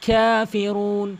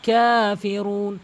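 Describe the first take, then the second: No difference in how they are said.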